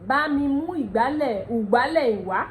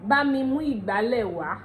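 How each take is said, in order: First: "ìgbálẹ̀" changed to oo-gba-leh; Ondo pronunciation. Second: "ìgbálẹ̀" with an ee opening; Yoruba pronunciation. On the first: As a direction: start "ìgbálẹ̀" with oo instead of ee. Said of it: "But in Ondo dialect". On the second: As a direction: model sentence, ee-gba-leh for "ìgbálẹ̀". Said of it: "Yoruba will say". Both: Shown as a demonstration.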